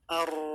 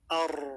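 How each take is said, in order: The two takes are said the same way.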